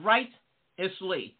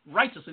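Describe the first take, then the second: First: "Righteously" drawn out in separate parts, right-eously; emphatic breakdown. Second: Said in the usual way. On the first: Shown as a demonstration. Preacher driving home how to live, "Righteously" slowly broken in parts. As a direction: stretch "Righteously" slowly, splitting it after right.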